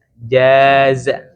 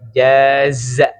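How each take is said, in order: First: The word begins with a j sound. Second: The same.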